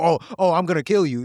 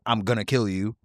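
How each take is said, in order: First: It is said in a flippant, unserious way. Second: It is said in a serious, threatening way.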